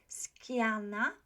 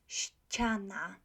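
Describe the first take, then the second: First: The word starts with a hard 'sk' sound. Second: The word starts with a soft 'ś' sound. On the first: The speaker calls it wrong. "A lot of students say skiana" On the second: The speaker calls it right. "be careful with the C there"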